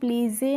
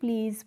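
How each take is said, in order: First: The word ends with an extra vowel sound. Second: The word ends on the z sound. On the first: The speaker calls it wrong. "इसको हम प्लीज़े नहीं पढ़ते हैं" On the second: The speaker calls it right. "प्लीज़ पढ़ते हैं"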